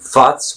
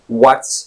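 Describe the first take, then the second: First: The word starts without a clear W sound. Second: The word starts with a clear W sound. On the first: The speaker calls it wrong. "it's not what's, which would be a typical mistake" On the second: The speaker calls it right. "the W sound in the very beginning of the word"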